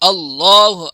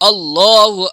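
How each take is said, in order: Both takes have the same delivery.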